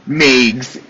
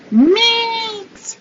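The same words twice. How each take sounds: First: Said in the usual way. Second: Meegs squeaked up high and stretched; squealed Meegs. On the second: Shown as a demonstration. Playfully squealing the new nickname Meegs high.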